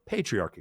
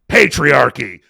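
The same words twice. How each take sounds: First: It is said flatly, in a neutral tone. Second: It is said in a loaded, emotional tone. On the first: The plain textbook sense of male-led societies. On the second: The sense of men deliberately oppressing women.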